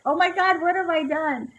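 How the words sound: It sounds anxious and worried.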